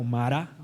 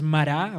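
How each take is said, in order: First: "mara" stressed on the first syllable. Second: "mará" stressed on the last syllable; stress on final syllable. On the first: Preacher offers another Hebrew pronunciation, first-stressed "mara". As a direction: say "mara" with the weight on the opening ma. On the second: Preacher unsure of the Hebrew pronunciation, final-stressed "mará". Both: Shown as a demonstration. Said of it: "no sé si es mará o mara".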